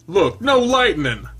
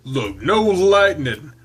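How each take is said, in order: First: Higher, louder, slow gloating; higher taunt. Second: Louder, slow taunt. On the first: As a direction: crow "no lightning" high and loud. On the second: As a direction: tease slowly and loudly. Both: Acted. Taunting, said twice.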